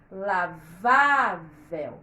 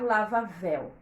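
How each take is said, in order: First: The stress is on the middle syllable. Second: The stress is on the last syllable. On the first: The speaker calls it right. "O acento na sílaba do meio, na sílaba penúltima" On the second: The speaker calls it wrong. "Se não colocar o acento, vai ficar lavavel"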